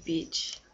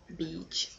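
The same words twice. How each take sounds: First: Said in the usual way. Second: Beach with a short, soft English ee, not stretched; careful English vowel. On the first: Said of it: "Pas de dire trop". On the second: Shown as a demonstration. Vlogger to viewers, correcting Beach softly in English. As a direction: say Beach quietly, keep the ee from sliding into another word. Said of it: "Pas de dire trop, sinon c'est pas le même mot".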